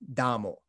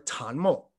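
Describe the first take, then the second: First: The word begins with a d sound. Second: The word begins with a t sound. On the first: This is how the characters were read in medieval times. "in the medieval dialect, these would have been pronounced much closer to dama or damo" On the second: This is how the characters are read today. "modern Mandarin pronunciation of these characters"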